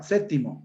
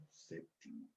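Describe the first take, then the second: First: "séptimo" said as SÉ-ti-mo, silent P; syncopated pronunciation. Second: Said in the usual way. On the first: Shown as a demonstration. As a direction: drop the P in séptimo. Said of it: "Palabra con síncopa". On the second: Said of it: "Palabra correcta".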